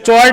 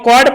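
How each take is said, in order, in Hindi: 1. यह शब्द 'ch' ध्वनि से शुरू होता है। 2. यह शब्द 'k' ध्वनि से शुरू होता है। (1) "सोचे वही जो चॉर्ड है वही पढ़ेगा" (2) "लेकिन वो कॉर्ड पढ़ दिया"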